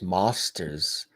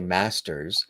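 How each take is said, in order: First: It is said in an English accent. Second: It is said in the speaker's own accent. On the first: "So in England, masters is mosters" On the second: "I say masters"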